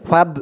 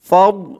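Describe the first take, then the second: First: The consonant is a plain, light d sound. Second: The consonant is a heavy, emphatic d sound. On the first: The speaker calls it wrong. "একেবারে ফাদ এরকম বলা যাবে না, ফাদ বললে কিন্তু দালের উচ্চারণ চলে আসবে" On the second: The speaker calls it right. "যেহেতু এখানে দোয়াদ, তাই দোয়াদের উচ্চারণটাই করতে হবে"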